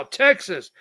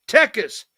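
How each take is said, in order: First: Said in the usual way. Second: "Texas" said as TEH-kas, no s after the k; imitated Mexican pronunciation. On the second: Host mimicking how Mexicans he met said "Texas", as TEK-us. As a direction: drop the middle s in "Texas": TEK-us. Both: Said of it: "When I first started meeting Mexicans".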